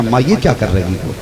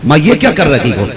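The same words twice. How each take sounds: First: Quiet, puzzled protest to mother; a low, soft grumble, still patient; first, softer complaint. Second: Firmer, irritated protest; the patience is wearing thin; tone turned sharper. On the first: Son quietly questions his mother, soft and puzzled. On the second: Son protests to his mother, sharper and irritated. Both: Shown as a demonstration. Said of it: "देखो, लहजा बदल गया दो बार में".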